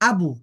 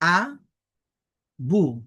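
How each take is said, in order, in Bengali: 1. দুটি অক্ষর জুড়ে একটি শব্দ হিসেবে উচ্চারিত হয়। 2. দুটি অক্ষর বিরতি দিয়ে আলাদাভাবে উচ্চারিত হয়। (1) "এরপরে একসাথে উচ্চারণ করব" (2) "দুটি বর্ণের আলাদা আলাদা উচ্চারণ করব, অর্থাৎ ভেঙ্গে ভেঙ্গে উচ্চারণ করব"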